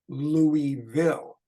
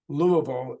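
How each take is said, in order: First: The first syllable sounds like 'Looey' with 'ee'. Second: The first syllable has a reduced 'uh' vowel. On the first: This is how outsiders say the city's name. The speaker calls it wrong. "instead of Louisville" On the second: This is how locals say the city's name. The speaker calls it right. "replacing the E, Louis, that sound with an uh"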